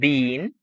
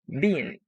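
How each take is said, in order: First: The vowel is long, like in bean. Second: The vowel is short, like in bin. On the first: "Instead of have and been" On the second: "you erase these two e's and you write a letter I"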